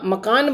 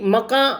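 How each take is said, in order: First: The word ends in a full n sound. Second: The word ends in a nasalized vowel. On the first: This is the later form. "इन सब में न लग गया" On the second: This is the older Urdu form. "Urdu के शब्दों में अनुनासिकता होती थी"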